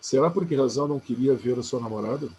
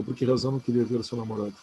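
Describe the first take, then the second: First: A deliberate read of "Será por que razão não queria ver a sua namorada?" with a rising end; a careful teacher's reading of the whole question; full sentence reading. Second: Quick demo of the reading that does not work; a quick, rushed demo of the wrong reading. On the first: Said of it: "Lê com será, lê a frase inteira". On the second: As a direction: rattle off "por que razão não queria ver o seu namorado?" fast. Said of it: "eu não posso ler assim". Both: Shown as a demonstration.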